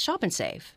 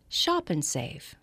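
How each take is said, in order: First: The three words run together as one phrase. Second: Each of the three words is given separate weight. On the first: The words are read without thinking about their meaning. The speaker calls it wrong. "the average voice actor or beginning voice actor would say" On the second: The speaker is thinking about shopping and saving. The speaker calls it right. "Three different words"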